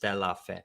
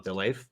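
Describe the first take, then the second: First: The name is said as three separate syllables. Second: The name is said as two bunched syllables. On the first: The speaker calls it right. "It's like three words" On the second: The speaker calls it wrong. "if it's all bunched together like this, people are like"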